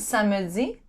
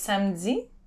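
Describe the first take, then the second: First: It is said with all three syllables. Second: It is said with only two syllables. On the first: This is how the word is spelled. The speaker calls it wrong. "It's written samedi" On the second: This is how the word is actually spoken. The speaker calls it right. "the way you say it is samedi"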